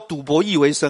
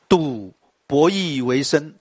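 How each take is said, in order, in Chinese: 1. 停顿在第二个音节之后。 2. 停顿在第一个音节之后。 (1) "你不能说赌博弈为生啊，那就ridiculous。你不能赌博，还要弈为生" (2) "这个要这样念哦"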